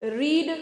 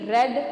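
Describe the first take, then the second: First: The vowel is long, like in 'reed'. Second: The vowel is short, like in 'red'. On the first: It is the present-tense form. "ये रीड्स है, इसको क्या बनाएंगे?" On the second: It is the past participle form. "Spelling same है, बोलने का तरीका अलग है।"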